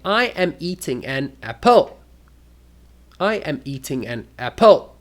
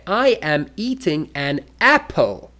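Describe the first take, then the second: First: "apple" stressed on its second syllable, rising; wrong stress. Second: "apple" stressed on its first syllable, falling; correct stress. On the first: Showing students odd intonation, "apple" stressed on the last syllable. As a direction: push the end of "apple" up, apPLE. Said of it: "That is the wrong stress". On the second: Teacher correcting students, "apple" stressed on the first syllable. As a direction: hit AP in "apple", then drop. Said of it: "No, you must say". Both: Shown as a demonstration.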